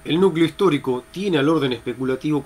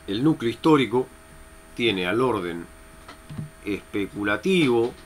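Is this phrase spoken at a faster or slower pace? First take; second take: faster; slower. First: The phrase is spoken at a faster pace. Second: The phrase is spoken at a slower pace.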